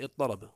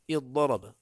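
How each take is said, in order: First: اضطرب as iṭṭaraba, doubled ط and no ض; merged into ط. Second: اضطرب as iḍḍaraba, doubled ض and no ط; merged into ض. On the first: Teacher warns against this form, اضطرب with doubled ط. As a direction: say اضطرب with one long heavy ط. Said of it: "ولا تقول اضطرب بالطاء". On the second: Teacher shows the allowed form, اضطرب with doubled ض. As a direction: say اضطرب with one long heavy ض. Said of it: "تقول". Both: Shown as a demonstration.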